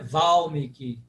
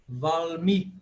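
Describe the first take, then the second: First: The stress falls on the first syllable. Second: The stress falls on the second syllable. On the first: The speaker calls it wrong. "Não é Valmiki" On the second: The speaker calls it right. "Penúltima é tônica"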